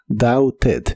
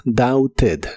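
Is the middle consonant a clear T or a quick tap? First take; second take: clear T; clear T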